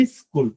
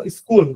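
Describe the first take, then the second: First: স্কুল said as "is-kul", with a short i in front; added initial i. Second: স্কুল starting straight on the s, no vowel before it; English-like pronunciation. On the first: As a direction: put a short i before the s of স্কুল. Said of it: "শুরুতে একটা রস্বই আসতেছে". (স্কুল-এর আগে হ্রস্ব 'ই', ইস্কুল) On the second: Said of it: "অনেকটা ইংলিশের মতো উচ্চারণ". (স্কুল, শুরুতে 'ই' ছাড়া) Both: Shown as a demonstration.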